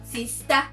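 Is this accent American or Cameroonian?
Cameroonian. It is said in a Cameroonian accent. "Cameroonians will say no, not sister"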